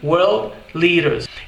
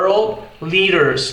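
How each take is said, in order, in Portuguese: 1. Isso é dito com sotaque britânico. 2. Isso é dito com sotaque americano. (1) "Já no inglês britânico soa como" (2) "no inglês americano"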